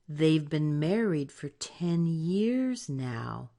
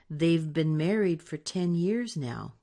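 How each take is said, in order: First: It is said slowly. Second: It is said fast.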